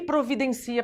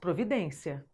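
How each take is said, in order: First: The stress falls on the syllable ci. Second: The stress falls on the syllable den. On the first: It is a verb meaning to arrange something. "Paroxítona terminada em A" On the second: It is a noun meaning a measure taken. "substantivo, paroxítona terminado em ditongo"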